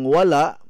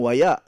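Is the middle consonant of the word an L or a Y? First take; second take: L; Y. First: The middle consonant is an L sound. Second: The middle consonant is a Y sound. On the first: This is the usual form with the L. "ang wala" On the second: This is how it is said in Surigao. "ug moadto po kog Surigao, ang wala mahimong waya"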